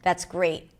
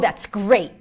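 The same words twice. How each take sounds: First: Flat, thin voice left hanging at the end. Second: Energized, low chest voice dropping at the end. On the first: The speaker does not care. "when I was not interested or just like indifferent, it was kind of flat" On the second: The speaker is annoyed. "when I was angry, you felt like I was dropping at the end"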